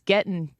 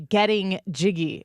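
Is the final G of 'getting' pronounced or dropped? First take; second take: dropped; pronounced. First: The final g of getting is dropped. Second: The final g of getting is pronounced. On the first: The speaker calls it right. "they dropped the G and then it was cool" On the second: The speaker calls it wrong. "Nobody ever did say getting jiggy"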